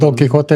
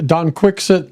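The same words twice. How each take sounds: First: It is said with a native Spanish accent. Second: It is said with an English-sounding accent. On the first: This is how it should be said. The speaker calls it right. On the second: This is how a poor teacher said it. The speaker calls it wrong.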